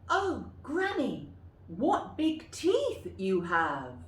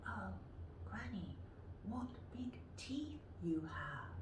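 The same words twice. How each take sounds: First: High start, slow and loud; amazed girl, drawn out. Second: Put-on hushed breathy girl; whispered. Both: Shown as a demonstration. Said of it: "practice them yourself".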